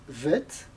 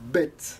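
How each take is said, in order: First: The word begins with a V sound. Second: The word begins with a B sound. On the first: The letter has no dot inside. "si elle n'a pas de point, elle se prononce vet" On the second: The letter has a dot inside. "si elle a un point dedans, elle se prononce bête"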